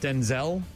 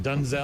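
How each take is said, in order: First: The first syllable sounds like 'den'. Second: The first syllable sounds like 'dun'. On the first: This is the familiar way people say the name. The speaker calls it wrong. "we've been mispronouncing his name" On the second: This is how the name is apparently meant to be said. The speaker calls it right. "it's Denzel or Dunzel"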